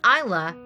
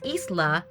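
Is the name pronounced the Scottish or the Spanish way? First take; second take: Scottish; Spanish. First: The name is given its Scottish pronunciation. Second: The name is given its Spanish pronunciation. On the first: "is Scottish and derived from Islay" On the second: "In Spanish, Isla is pronounced as"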